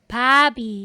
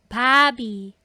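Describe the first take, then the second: The two takes are said the same way.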